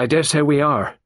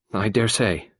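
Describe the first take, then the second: First: Louder, higher insistence on dare; stressed dare. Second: Said in the usual way. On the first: A narrator's reading. Raymond repeats, then insists.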